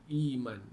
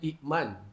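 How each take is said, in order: First: A long vowel replaces the glottal stop. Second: A glottal stop follows the first vowel. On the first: The second hamzah has been replaced by a long vowel. "Hamzah kedua ditukar dengan Ya. Jadi baca I, Iman" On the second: This is the original form of the word. "Iman tu asalnya ikman"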